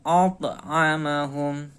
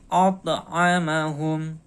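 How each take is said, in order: The two takes are said the same way.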